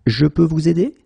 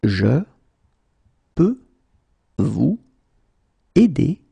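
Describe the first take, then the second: First: Said in the usual way. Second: Long pause after every word; slow, word by word. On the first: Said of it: "teacher repeats full sentence". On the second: Shown as a demonstration. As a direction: say Je, peux, vous, aider one by one. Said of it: "teacher drills word by word".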